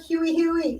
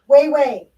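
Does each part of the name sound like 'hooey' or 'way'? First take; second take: hooey; way. First: Each part sounds like 'hooey', two syllables. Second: Each part sounds like 'way', one syllable. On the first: The speaker calls it wrong. "It is not Huey Huey" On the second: The speaker calls it right. "Way Way is the correct pronunciation"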